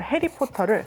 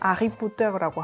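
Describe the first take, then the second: First: The word begins with an h sound. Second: The word begins without an h sound.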